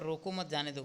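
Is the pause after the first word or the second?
second. The pause comes after the second word. Let the person go. "यहाँ पर जाने के लिए कह रहा है"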